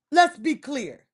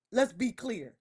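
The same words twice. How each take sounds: First: Firmer, louder. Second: Said in the usual way. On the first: Real, not acted.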